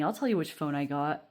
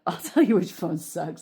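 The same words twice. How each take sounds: First: Said in the usual way. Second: Laughing, louder rephrase; a louder, laughing dig at the phone; laughing correction. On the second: Real, not acted. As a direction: correct yourself through a laugh.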